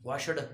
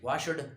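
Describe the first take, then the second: No difference in how they are said.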